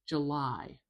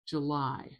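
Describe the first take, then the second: No difference in how they are said.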